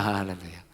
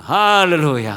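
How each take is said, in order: First: Quiet hallelujah. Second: Loud hallelujah. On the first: Preacher echoing his own call to the church, low and soft. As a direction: drop 할렐루야 low and soft, almost to yourself. Echoes it right after. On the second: Preacher calling out to the church, loud hallelujah. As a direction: ring out Hallelujah with a loud, falling call. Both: Real, not acted.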